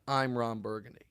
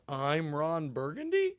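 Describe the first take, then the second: First: It is said as a statement, falling. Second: It is said as a question, rising.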